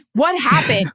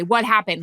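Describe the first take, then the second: First: "What happened?" with "What" hit hard and louder, falling at the end; punchy fan question. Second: Said in the usual way. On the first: Shown as a demonstration. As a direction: ask it like an eager fan, leaning on "What". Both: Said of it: "Just say, like a fan".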